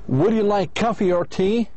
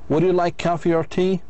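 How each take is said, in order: First: The voice rises on coffee and rises on tea. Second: The same.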